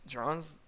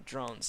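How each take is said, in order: First: Incredulous questioning echo, rising; shocked echo. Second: Said in the usual way. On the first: A narrator's reading. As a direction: repeat "Drones?" in disbelief, tune climbing. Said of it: "The wolf in bold letters".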